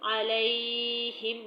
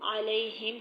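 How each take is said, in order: First: The middle vowel is stretched out long. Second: The middle vowel is said softly and short. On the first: The speaker calls it wrong. "अलैहिम नहीं पढ़ना" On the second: The speaker calls it right. "अलैहिम ही पढ़ना है"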